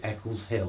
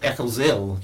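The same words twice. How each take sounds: First: The h at the start of Hill is pronounced. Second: The h at the start of Hill is dropped. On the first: The speaker calls it wrong. "you don't say Eccles Hill. That's a bit posh" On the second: The speaker calls it right. "You don't pronounce the H"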